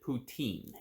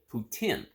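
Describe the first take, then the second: First: It is said the American way. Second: It is said the Canadian way. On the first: "here in the United States, we pronounce it poutine" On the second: "that is how it is, it is pronounced in uh, Canada"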